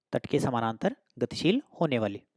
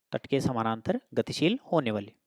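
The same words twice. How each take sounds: Both takes have the same delivery.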